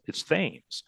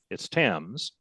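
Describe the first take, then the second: First: The name is said Connecticut style. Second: The name is said London style.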